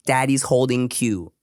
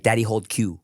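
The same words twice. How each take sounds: First: Said in the usual way. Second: A hint of a little girl getting the words wrong; toddler grammar. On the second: A father mimicking his toddler's broken grammar, lightly voiced. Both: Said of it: "instead of, like".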